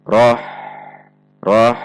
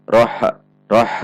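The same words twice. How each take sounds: First: "Roh" ending in a long, thin breath of h; unheld flowing h. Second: "Roh" with a small echoed vowel after the h; bouncing h. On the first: Teacher models correct ha sukun, flowing h. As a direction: let the h of "Roh" flow out freely. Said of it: "dibaca tipis dan tidak tertahan". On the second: Warning example of a bounced ha sukun. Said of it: "atau memantul". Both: Shown as a demonstration.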